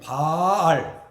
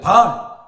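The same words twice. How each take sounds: First: The vowel is drawn out long. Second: The vowel is said short. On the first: It means the true husband. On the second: It means the idol.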